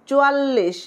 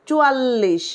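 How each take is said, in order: The two takes are said the same way.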